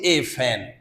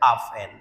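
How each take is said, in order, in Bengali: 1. fan-এর আগে আর্টিকেলটি 'ay' হিসেবে বলা হয়। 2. fan-এর আগে আর্টিকেলটি 'uh' হিসেবে বলা হয়। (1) "আমরা সারা জীবন পড়ছি এ ফ্যান" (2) "এ জায়গা এখন আ হয়ে গেছে"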